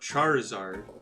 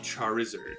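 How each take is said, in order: First: The ending rhymes with hard. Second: The ending rhymes with lizard. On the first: The speaker calls it wrong. "we all pronounce Charizard incorrectly" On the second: The speaker calls it right. "the actual correct pronunciation of Charizard should be Charizard"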